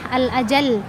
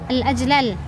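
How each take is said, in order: First: The two L sounds merge into one doubled L. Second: The two L sounds are pronounced separately. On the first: The speaker calls it right. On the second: The speaker calls it wrong. "dua lam yang bertemu maka dia diidghamkan"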